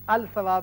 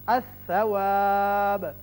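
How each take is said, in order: First: The l is clearly sounded before s. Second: The l merges into a doubled s. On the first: The speaker calls it wrong. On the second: The speaker calls it right.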